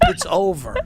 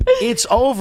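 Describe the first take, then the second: First: Said in the usual way. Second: Much higher and louder, sing-song call; mock announcement. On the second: Real, not acted. Taunting the celebrity ladies, loud high mock call. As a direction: belt it out like a taunting herald.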